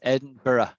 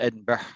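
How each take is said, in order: First: The ending sounds like borough with no hard g. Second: The ending sounds like berg with a hard g. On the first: The speaker calls it right. "It's Edinburgh" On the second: The speaker calls it wrong. "it looks like Berg"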